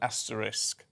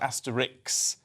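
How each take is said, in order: First: The word ends with an 'sk' sound. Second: The word ends with a 'ks' sound. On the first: The speaker calls it right. "the correct asterisk" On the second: The speaker calls it wrong. "people say Asterix rather than the correct asterisk"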